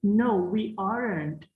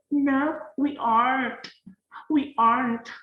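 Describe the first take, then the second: First: Slow, with the t in aren't said clearly; Indonesian-style aren't. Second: Higher, with aren't squeezed to ant; show-off Western aren't, swallowing the t; exaggerated native accent. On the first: Teacher models aren't the Indonesian way for students. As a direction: spell out aren't the Indonesian way, slowly. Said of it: "ikuti pola bibir orang Indonesia". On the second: Teacher hams up a native aren't to tease students. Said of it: "Oke, kayak gitulah ya". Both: Shown as a demonstration.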